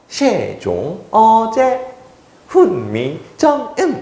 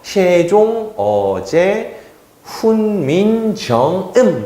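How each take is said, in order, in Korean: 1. 옛 발음으로 읽고, 성조도 있습니다. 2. 옛 발음으로 읽고, 성조는 없습니다. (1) "사성법까지 적용하면요" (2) "그때 당시에 발음을 좀 더 가까이 하면요"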